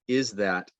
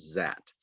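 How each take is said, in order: First: The word 'is' is fully pronounced. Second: The word 'is' is reduced almost away. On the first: "the full form" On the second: "the reduced form"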